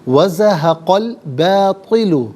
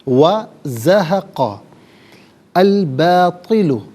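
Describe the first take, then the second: First: The words are joined, with the hamza dropped. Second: The words are said separately, with 'al' pronounced.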